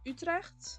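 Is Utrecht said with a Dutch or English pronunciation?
Dutch. It is said with a Dutch pronunciation. "is the Dutch"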